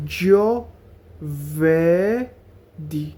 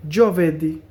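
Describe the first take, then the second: First: Very slow broken syllables; জোভেরদি split into slow syllables. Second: Said in the usual way. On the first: Shown as a demonstration. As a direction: say জোভেরদি as jo-ver-di. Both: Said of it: "এভাবে syllable ভাঙা ভাঙা".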